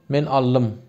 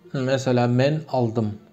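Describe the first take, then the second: First: The 'ld' merges into a long 'll' sound. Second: The word is said with a clear 'ld' sound.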